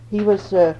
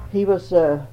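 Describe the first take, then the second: No difference in how they are said.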